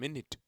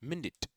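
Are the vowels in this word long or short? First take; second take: short; short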